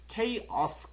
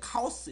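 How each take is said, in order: First: It begins with a 'kay' sound, English-style. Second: It begins with a 'kah' sound, Korean-style. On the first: "실제 발음 기호서는 chaos, chaos라고 읽습니다" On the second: "이게 카오스 이렇게 읽어지죠?"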